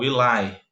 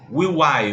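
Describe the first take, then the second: First: The two words are joined into one. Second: The two words are said separately. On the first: The speaker calls it right. "Você transforma isso numa palavra só" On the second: The speaker calls it wrong. "Não vai falar"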